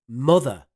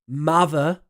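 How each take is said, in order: First: It is said in a Northern English accent. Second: It is said in a Southeast English accent. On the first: "and Northern" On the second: "The Southeast"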